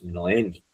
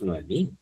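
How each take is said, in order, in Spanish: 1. El acento cae en la sílaba del medio. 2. El acento cae en la última sílaba. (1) "tú te llamas Noemi" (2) "tú no te llamas Noemí"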